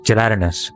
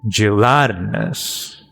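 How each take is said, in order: First: The stress does not fall on 'lat'. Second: The stress falls strongly on 'lat'. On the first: The speaker calls it wrong. "I remember last time I was like gel gelatinous" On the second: The speaker calls it right. "There's a big emphasis in lat"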